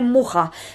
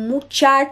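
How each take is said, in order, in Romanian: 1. Consoana din mijloc este un h aspirat. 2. Consoana din mijloc este un sunet 'ch'. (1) "am aflat că se spune Muha" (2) "tot aveam senzația că este Mucea"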